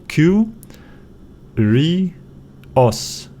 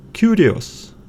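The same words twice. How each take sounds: First: "Q, ri, os" as three separate syllables. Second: Said in the usual way. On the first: Shown as a demonstration. Teacher breaking down a Greek word, syllable by syllable. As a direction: pause after each part of "Q, ri, os". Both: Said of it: "break it down after a vowel".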